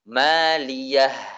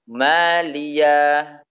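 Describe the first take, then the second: First: The word ends in an audible h sound. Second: The word ends in a long a vowel. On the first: The speaker calls it right. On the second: The speaker calls it wrong. "Suara ha diganti dengan suara alif"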